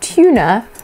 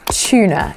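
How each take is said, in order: First: It begins with a separate t and y sound. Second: It begins with a squished ch sound. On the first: "instead of saying tuna" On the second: "we often squish it together and make a ch sound"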